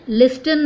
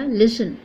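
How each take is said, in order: First: "लिस्टन" with a clear T after the S; T wrongly sounded. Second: "लिसन" with the T dropped; silent T. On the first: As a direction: pronounce the T in "लिस्टन". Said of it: "लिस्टन मत पढ़िएगा". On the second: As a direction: say "लिसन" with no T sound. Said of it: "इसको लिसन ब". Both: Shown as a demonstration.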